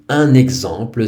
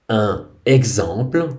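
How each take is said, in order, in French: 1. Un n de liaison relie les deux mots. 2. Les mots se disent sans consonne de liaison.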